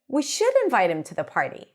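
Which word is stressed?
should. The word should is stressed with higher pitch. Someone else doubts that he should be invited. "emphasizing should by going higher in pitch"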